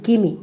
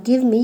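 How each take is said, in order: First: "gimme" with no v; shortened form. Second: Said in the usual way. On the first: Shown as a demonstration. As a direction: run the two words into "gimme". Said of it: "you can use". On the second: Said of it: "Instead of".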